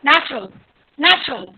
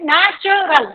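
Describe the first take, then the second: First: Natural run together as NACH-rul; quick, falling natural without a choo; natural pronunciation. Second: Natural slowly as na, chuh, ral; syllable by syllable. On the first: (natural एक साथ, चू के बिना) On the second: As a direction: split natural, weak chuh instead of choo. (natural धीरे, चू की जगह च) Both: Shown as a demonstration. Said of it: "चू नहीं है एक्चुअल में".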